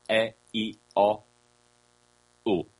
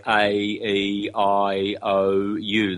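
First: A, E, I, O, U as pure ah, eh, ee, oh, oo; pure vowel sounds. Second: A, E, I, O, U as diphthongs: ay, ee, eye, oh, you; English letter names. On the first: Teacher giving the true vowels, A, E, I, O, U as ah, eh, ee, oh, oo. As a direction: sound A, E, I, O, U without glides, ah-eh-ee-oh-oo. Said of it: "The true vowels are". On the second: Teacher showing the wrong vowels, A, E, I, O, U as gliding English names. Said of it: "in the very unphonetic English way". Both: Shown as a demonstration.

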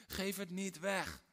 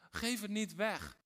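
First: Slow, "weg" set down firmly; slow urgent plea on "weg"; firm warning. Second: Slow, louder, "Geef" punched high; insistent command, "Geef" stressed; stronger warning. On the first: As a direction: plant "weg" with a falling stress. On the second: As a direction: hit "Geef" hard and lift it. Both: Shown as a demonstration.

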